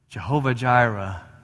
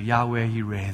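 First: Both words begin with a J sound. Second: Both words begin with a Y sound. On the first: This is a later altered form of the name. The speaker calls it wrong. "the corrupted form of Hebrew where the Y's became J's" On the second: This is the original form of the name. The speaker calls it right. "In Hebrew, it's actually Yahweh Yireh"

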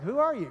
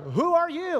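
First: It is said in a calm voice. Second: It is said in a scared voice.

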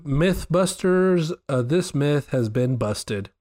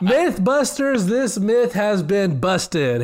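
First: It is said at normal, quieter volume. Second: It is said louder.

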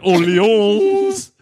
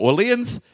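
First: The name is said in an affected, showy way. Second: The name is said in a plain, everyday way. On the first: The speaker pretends to know the proper pronunciation. The speaker calls it wrong. "I'm not saying it in a stupid way like I know it. So I'm not saying Orleans" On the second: The speaker sticks to a familiar pronunciation. The speaker calls it right. "I've committed to Orleans"

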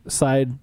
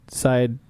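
No difference in how they are said.

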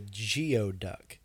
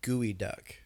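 First: The first part sounds like 'gee-oh'. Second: The first part sounds like 'gooey'. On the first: The speaker calls it wrong. "I mispronounced it" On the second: The speaker calls it right. "Is what it's technically called"

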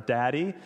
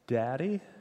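First: It is said loudly. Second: It is said softly.

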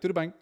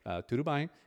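First: The two words are run together quickly. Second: Each word is pronounced separately and carefully. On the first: A native speaker is speaking. The speaker calls it right. "they're just like smashing it together" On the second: A foreigner is speaking. The speaker calls it wrong. "I'm like pronouncing the words"

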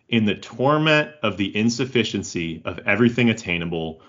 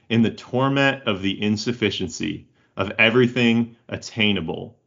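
First: It is said at a normal speed. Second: It is said more slowly.

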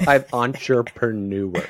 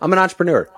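First: It is said slowly and carefully. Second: It is said quickly and smoothly.

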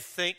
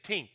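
First: The word starts with a soft 'th' sound. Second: The word starts with a hard 't' sound. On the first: "they don't say think" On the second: "they say tink"

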